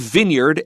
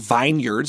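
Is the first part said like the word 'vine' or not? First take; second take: not like vine; like vine. First: It is not said as 'vine' plus 'yard'. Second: It is said as 'vine' plus 'yards'. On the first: The speaker calls it right. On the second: The speaker calls it wrong.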